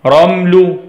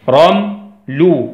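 First: Said in the usual way. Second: "رمل" in two slow beats, ram, pause, lu; split into syllables. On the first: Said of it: "نكتبها على بعضها كلمة". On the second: Shown as a demonstration. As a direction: break "رمل" after ram with a clear gap.

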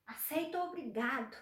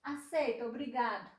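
First: Aceito rising, obrigado with a laugh; softer, laughing thanks; grateful acceptance with a laugh. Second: Aceito with a pause, then obrigado falling; Aceito, then a break before obrigado; firm falling obrigado after the pause; firm refusal. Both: Shown as a demonstration. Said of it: "Ela pode ser autoritária".

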